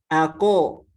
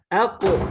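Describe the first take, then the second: First: The q sound carries a full vowel. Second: The q sound ends in a brief echo. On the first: "kalau harokat" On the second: "kalau qalqalah"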